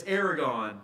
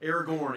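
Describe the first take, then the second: First: Aragorn said as "Aragon", without the second r; mispronounced name. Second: Aragorn ending in a clear "-gorn"; corrected pronunciation. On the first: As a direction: say Aragorn like "AIR-uh-gahn". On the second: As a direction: say Aragorn like "AIR-uh-gorn", with both r's. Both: Real, not acted. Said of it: "excuse me".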